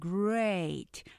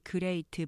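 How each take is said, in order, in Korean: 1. 이 단어는 하나의 긴 음절이에요. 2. 이 단어는 여러 음절로 나뉘어 발음돼요. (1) "이름절 great 하나로 길게 이름절로 발음하시고요" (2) "우리가 보통 great 바 그렇게 말하지만 great가 아니라"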